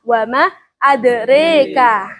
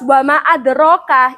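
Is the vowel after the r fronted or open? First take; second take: fronted; open. First: The vowel after the r leans toward e. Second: The vowel after the r is open. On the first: This is another narrator's reading of the verse. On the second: This is one narrator's reading of the verse.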